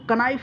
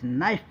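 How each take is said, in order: First: The word begins with a k sound. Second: The word begins with an n sound. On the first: The speaker calls it wrong. "इसको कनाइफ नहीं पढ़ेंगे guys" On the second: The speaker calls it right. "नाइफ पढ़ेंगे, के silent है"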